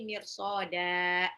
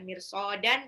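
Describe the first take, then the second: First: The word ends with a lengthened vowel. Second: The word ends with an n sound. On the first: The speaker calls it right. "tapi mirsoda dibacanya, ya paling nggak dua harokat" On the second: The speaker calls it wrong. "bukan mirsodan"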